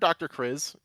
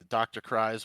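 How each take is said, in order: First: The name has a short 'ih' vowel. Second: The name has a long 'eye' vowel. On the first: "whichever vowel pronunciation you want to go with" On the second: "kind of Doctor Cries works for us"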